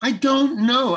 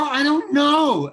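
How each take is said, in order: First: High and louder "I don't know", clipped; impatient, just want out; fed-up attitude. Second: Slow, high, drawn-out "I don't know"; fed-up attitude. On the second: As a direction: sound fed up and ready to leave. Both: Retold or imitated. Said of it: "that's the way I said".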